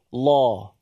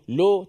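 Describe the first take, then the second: First: The syllable sounds like a full, heavy 'law'. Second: The syllable sounds like a light Malay 'lo'. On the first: The speaker calls it right. "tapi law" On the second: The speaker calls it wrong. "Dia tidak seperti bahasa Melayu. Lo tapi"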